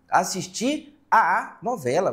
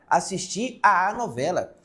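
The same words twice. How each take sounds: First: The vowel 'a' is said twice in a row. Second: The vowel 'a' is said once, merged. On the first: The speaker calls it wrong. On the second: The speaker calls it right.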